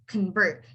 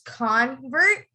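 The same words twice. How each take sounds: First: The stress is on the second syllable. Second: The stress is on the first syllable. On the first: It names the action of changing belief. "and the verb, I would say is convert" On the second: It names a person who changed belief. "So the noun, I would say it as convert"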